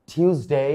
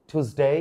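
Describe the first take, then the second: No difference in how they are said.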